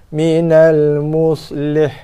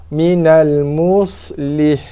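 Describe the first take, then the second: No difference in how they are said.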